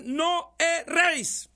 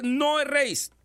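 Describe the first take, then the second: First: "No erréis" much higher and slow, stretching "erréis" with a fall; drawn-out emphatic quote. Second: "No erréis" with a punched, higher "No", falling hard; emphatic quote. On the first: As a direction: sing out "erréis" long and high. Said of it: "la Biblia dice". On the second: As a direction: stress the "No" in "No erréis" and drop at the end. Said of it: "Por eso la Biblia dice". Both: Acted.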